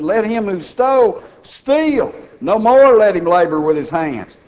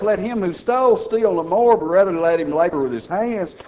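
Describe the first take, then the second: First: The pause comes after the word 'steal'. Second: The pause comes after the word 'more'.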